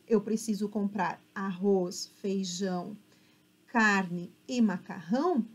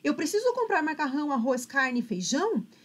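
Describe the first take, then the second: First: The list is read calmly with pauses. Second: The list is read fast without pauses.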